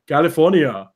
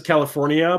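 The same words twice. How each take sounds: First: CALIFORNIA in a thick Austrian accent; Arnold. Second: Said in the usual way. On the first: Shown as a demonstration. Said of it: "he always tries to say it right". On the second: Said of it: "he always says California, but it's, like, not".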